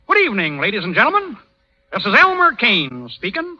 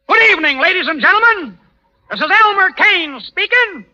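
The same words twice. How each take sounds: First: It is said quietly. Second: It is said loudly.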